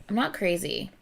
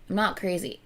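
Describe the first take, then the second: Both takes have the same delivery.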